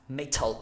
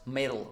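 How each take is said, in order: First: The middle consonant is a crisp T. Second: The middle consonant is a soft D-like tap. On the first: This is the standard British pronunciation. "you cannot say properly, well, when talking fast" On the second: This is how Americans say it when talking fast. "the T sound becomes a D sound"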